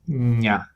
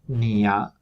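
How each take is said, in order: First: One palatal nasal sound comes before the vowel. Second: A plain n and an i come before the vowel. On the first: The speaker calls it right. "release, thinking that you're pronouncing N" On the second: The speaker calls it wrong. "you want to avoid thinking that this palatal nasal is actually a sequence of consonant N and vowel I"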